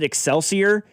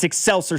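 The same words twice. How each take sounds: First: The stress falls on the ending 'sior'. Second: The ending 'sior' is left unstressed. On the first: This is how outsiders say the town's name. The speaker calls it wrong. "people pronounce it Excelsior, and it drives all of us insane" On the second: This is how locals say the town's name. The speaker calls it right. "that's not how people in the area pronounce it. It's Excelsior Springs"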